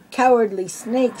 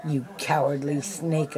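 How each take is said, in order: First: Higher, louder hissing shout. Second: Said in the usual way. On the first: A narrator's reading. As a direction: spit "Cowardly snake" back with a snake-like hiss. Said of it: "shouted Jafar with a loud hiss". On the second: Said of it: "Aladdin snapped".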